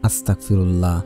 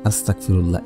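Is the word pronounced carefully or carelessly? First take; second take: carelessly; carelessly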